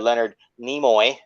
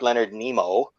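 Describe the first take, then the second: First: The surname ends with an 'oy' sound. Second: The surname ends with an 'oh' sound. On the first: The speaker calls it right. "not Leonard Nemo" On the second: The speaker calls it wrong. "like I said on the on the stream that one time"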